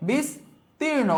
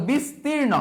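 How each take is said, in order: First: বিস্তীর্ণ slow and high, bis, pause, tirno; syllable by syllable. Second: Said in the usual way. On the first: Shown as a demonstration. Teacher showing the pronunciation, বিস্তীর্ণ slowly split in two. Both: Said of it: "উচ্চারণটা কি হবে".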